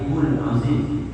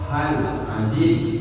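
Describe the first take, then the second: First: The syllable before azim has a u vowel. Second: The syllable before azim has an a vowel. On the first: God would be the one asking forgiveness. The speaker calls it wrong. "apalagi hul azim, jangan" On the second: The speaker asks God for forgiveness. The speaker calls it right. "Yang betul itu hal azim"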